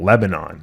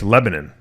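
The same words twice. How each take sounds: First: The name is pronounced the way it is said overseas. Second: The name is pronounced the local Pennsylvania way. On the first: It names the country abroad. "I believe that's how they pronounce it over there" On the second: It names the Pennsylvania town. "but in Pennsylvania, it's Lebanon"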